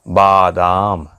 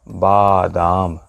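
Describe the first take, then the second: No difference in how they are said.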